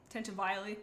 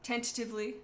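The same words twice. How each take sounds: First: "Tentatively" said as tenta-VILE-ly; "Tentatively" ending like "vile-ly", tossed off; playful mispronunciation. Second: Said in the usual way. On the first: Shown as a demonstration. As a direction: mangle "Tentatively" with an "eye" sound before the -ly.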